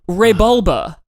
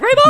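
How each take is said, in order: First: It is said at normal volume. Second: It is screamed loudly.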